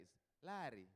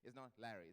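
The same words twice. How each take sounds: First: "Larry" with a rolled Luo R, falling; village Luo accent. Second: Said in the usual way. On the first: Shown as a demonstration. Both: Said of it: "Do you notice the difference?".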